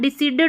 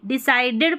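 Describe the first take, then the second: First: The middle vowel sounds like 'ee'. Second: The middle vowel sounds like 'eye'. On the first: The speaker calls it wrong. "डिसीडेड नहीं पढ़ना है" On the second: The speaker calls it right. "डिसाइडेड पढ़ना"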